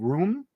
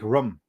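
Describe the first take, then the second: First: The vowel is a long oo sound. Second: The vowel is short, almost like rum. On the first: The speaker calls it right. "instead of saying room" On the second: The speaker calls it wrong. "say like rum. It almost sounds like they're saying rum"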